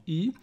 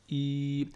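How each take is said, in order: First: "I" said short; short vowel. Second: "I" stretched out long; prolonged vowel. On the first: Teacher naming the kasra sound, short "I". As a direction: say "I" as a brief single vowel. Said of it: "Si j'ai une kasra". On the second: Teacher showing the prolongation, long "I". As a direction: hold "I" on one lengthened sound. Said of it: "ça va faire prolongation". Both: Shown as a demonstration.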